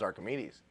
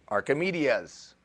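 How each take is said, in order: First: "Archimedes" said as ar-kuh-MEE-deez, lower and softer; correct Archimedes. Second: "Archimedes" drawn out as ar-kuh-MEE-dee-uz; mispronounced Archimedes. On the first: Shown as a demonstration. Speaker corrects himself, "Archimedes" softly ending in deez. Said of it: "better known as". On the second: Retold or imitated. Speaker repeats his old mistake, "Archimedes" slowly ending dee-uz. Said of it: "better known as Archimedes".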